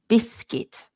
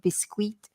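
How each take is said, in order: First: The u in the word is silent. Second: The u in the word is pronounced. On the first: The speaker calls it right. "So we say biscuit. So just ignore the U" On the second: The speaker calls it wrong. "sometimes people try to say things like biscuit or something like that"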